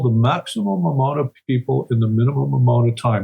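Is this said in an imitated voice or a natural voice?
natural. It is said in the speaker's natural voice.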